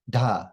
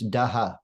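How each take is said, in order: First: The sound is said as one syllable. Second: The sound is split into two syllables. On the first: The speaker calls it right. "It should be one, da" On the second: The speaker calls it wrong. "pronounce these like two syllables, daha. This is wrong"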